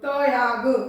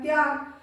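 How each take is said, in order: First: The t is said as its own full syllable. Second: The t joins the y in one cluster. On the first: The speaker calls it wrong. "उसमें आपका त पूरा है" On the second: The speaker calls it right. "इसमें मैंने त्य बोला है, त नहीं बोला है"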